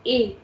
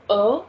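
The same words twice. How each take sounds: First: "A" said as a closed é, "ay"; E with accent aigu. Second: "a" said as a schwa, "uh"; E without accent. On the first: Teacher contrasting E with accent for learners, closed "ay". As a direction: make "A" a clear French "ay". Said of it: "With accent, it will become". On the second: Teacher contrasting E without accent for learners, neutral "uh". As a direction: let "a" be a loose, neutral "uh". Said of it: "Without accent, this is". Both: Shown as a demonstration.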